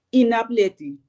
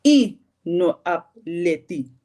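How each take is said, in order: First: All the words run together as one. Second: Separate words, starting with the short 'i'. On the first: "Het lijkt bijna één woord wat je dan hoort" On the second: "als je you afkort"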